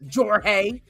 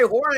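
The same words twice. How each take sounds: First: The name starts with a J sound. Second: The name starts with an H sound. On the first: The speaker calls it wrong. "I don't say Jorge" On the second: The speaker calls it right. "I say Jorge"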